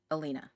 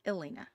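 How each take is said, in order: First: Alina said as uh-LEE-nuh, starting with an uh sound; first-guess pronunciation. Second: Elena said as eh-LAY-nuh, opening on a clear eh; corrected pronunciation. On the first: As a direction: say Alina with a soft schwa up front. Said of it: "It's not I". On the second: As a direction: correct yourself to Elena, starting with eh not uh. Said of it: "it's not I, it's Elena". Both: Shown as a demonstration.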